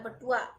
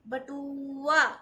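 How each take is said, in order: First: The u vowel is said short and quickly. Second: The u vowel is drawn out long. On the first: The speaker calls it right. "ऐसे बोला है बटुआ, जल्दी से बोल दिया" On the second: The speaker calls it wrong. "ऐसा तो नहीं बोला ना"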